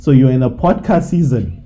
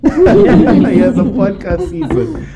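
First: Said in the usual way. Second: Slow, laughing through the words. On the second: Real, not acted. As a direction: repeat it with a laugh, slower. Repeats the joke, laughing.

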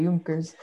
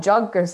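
First: Junkers starting with a Y sound; German pronunciation. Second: Junkers with an English J; English J pronunciation. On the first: Thanking a friend for the correction, Junkers with a German Y. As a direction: say Junkers as "Yunkers". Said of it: "Germans say their J's as, uh, Y". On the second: Admitting a near mistake to friends, Junkers with an English J. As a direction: begin Junkers like "junk". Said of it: "hopped in and called it Junkers". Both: Shown as a demonstration.

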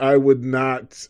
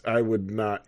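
First: I would not said loud and slow; emphatic. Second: Said in the usual way. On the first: Real, not acted. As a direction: stress on I would not, raised and drawn out.

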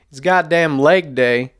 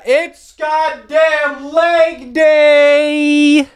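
First: Said in the usual way. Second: Very high, long drawn-out holler; exaggerated high-pitched gym war cry; hammed-up hype. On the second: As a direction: shriek it like an over-the-top announcement, stretching every word. Suddenly hypes up the gym day.

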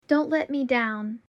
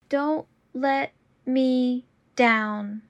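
First: Said in the usual way. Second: Slow and deliberate. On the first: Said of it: "repetition drill, normal take". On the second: Shown as a demonstration. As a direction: say it slowly and clearly. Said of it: "repetition drill, slowed take".

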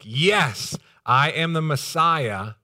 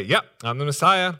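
First: Slow, louder, higher declaration; loud, emphatic. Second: Higher, louder, offhand yep; casual confirmation. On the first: Preacher voicing the expected answer to John, loud and emphatic. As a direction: proclaim it with weight on each word. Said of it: "a loud, emphatic". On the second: Preacher imagining Jesus answering John outright, casual. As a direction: confirm it breezily, as no big deal. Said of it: "doesn't just come out and say". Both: Acted.

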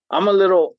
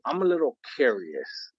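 First: Loud. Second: Said in the usual way. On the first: Acted.

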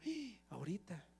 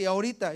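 First: Gasp, then barely voice the word; hushed alarm. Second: Said in the usual way. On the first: Acted. Believer reacts to the enemy's threat, hushed alarm.

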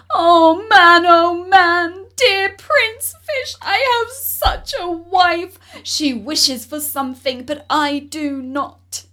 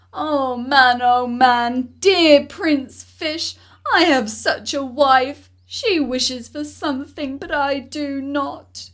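First: Higher, much louder call over the wind; crying out over the storm. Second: Calling out. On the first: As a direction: shout to be heard in a gale. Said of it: "cried out, without being able to hear his own words". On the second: Fisherman calls to the fish. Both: Acted.

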